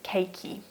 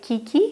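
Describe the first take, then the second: First: The first syllable sounds like 'kay'. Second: The first syllable sounds like 'key'. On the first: The speaker calls it right. "apparently it is keiki" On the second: The speaker calls it wrong. "I used to say kiki"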